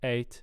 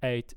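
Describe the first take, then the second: No difference in how they are said.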